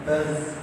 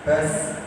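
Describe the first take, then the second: First: The consonant sounds like a buzzing z. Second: The consonant sounds like a buzzing z.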